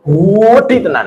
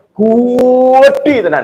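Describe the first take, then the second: First: Slow stretched "Gede tenan" in Surabaya style; drawn-out Surabaya exaggeration. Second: "Gede tenan" very slow, higher and louder in Surabaya style; exaggerated Surabaya drawl. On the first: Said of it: "orang Surabayaan". (logat Surabaya, "Gede tenan" dipanjangkan) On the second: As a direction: stretch "Gede tenan" hard, Surabaya over the top. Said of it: "itu orang Surabayaan gitu". (logat Surabaya lebay, "Gede tenan" sangat panjang dan tinggi)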